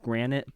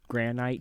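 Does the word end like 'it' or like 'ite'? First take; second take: it; ite. First: The word ends with a short 'it' sound. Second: The word ends with a long 'ite' sound. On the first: The speaker calls it right. "I know it's pronounced granite" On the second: The speaker calls it wrong. "saying granite to finish the trio of ites"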